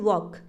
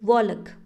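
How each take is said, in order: First: No L sound is pronounced before the K. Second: An L sound is pronounced before the K. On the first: The speaker calls it right. "हम सिर्फ सीधा क्या बोलते हैं" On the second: The speaker calls it wrong. "एल को use करते तो हम कैसे बोलते"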